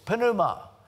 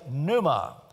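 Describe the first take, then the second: First: The initial P sound is pronounced. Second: The initial P sound is silent. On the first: This is the Greek pronunciation. "in the Greek, you do" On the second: This is the English pronunciation. "but in English, we say pneuma"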